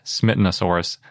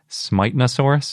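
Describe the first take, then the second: First: The first vowel is a short I sound. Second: The first vowel is a long I sound. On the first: "anglicized into Smith with the shorter I" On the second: "they did a little line over the I to indicate that it's a long I"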